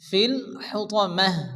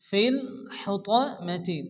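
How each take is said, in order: First: The last word ends with a silent 'h' sound. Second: The last word ends with a 'ti' sound.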